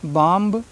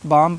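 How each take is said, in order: First: The final b sound is pronounced. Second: The final b sound is silent. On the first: The speaker calls it wrong. "नहीं पढ़ना है" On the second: The speaker calls it right. "बाम पढ़ेंगे"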